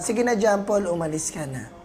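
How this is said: It is said quietly and in a subdued way. "mahina na lang ha"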